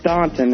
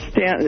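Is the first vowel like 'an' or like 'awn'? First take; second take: awn; an. First: The first vowel sounds like 'awn' in 'lawn'. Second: The first vowel sounds like 'an' in 'Stan'. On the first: This follows the written spelling of the name. "it's spelled" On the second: This is how locals say the name. "as they pronounce it"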